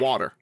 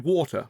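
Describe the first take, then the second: First: It is said with an American accent. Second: It is said with a British accent.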